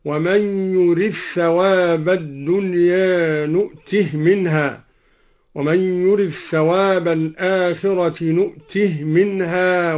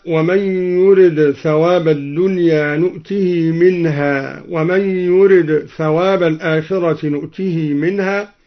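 First: يرد ثواب run together as "yurith-thawab", نؤته ending in a bare h; merged dal, silent-vowel ha. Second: Said in the usual way. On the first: Shown as a demonstration. Teacher showing al-Duri's reading, يرد ثواب merged, نؤته as "nu'tih". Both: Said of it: "قرأ الدوري بإدغام الدال في الثاء وإسكان الهاء".

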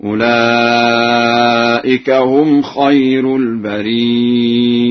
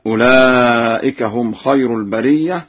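First: Slow chant, البرية as al-barii'a with hamza; ya then hamza. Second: Said in the usual way. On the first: Shown as a demonstration. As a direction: draw out long ii, then glottal stop in البرية. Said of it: "بياء ساكنة بعدها همزة هكذا". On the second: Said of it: "قرأ ورش بياء ساكنة بعدها".

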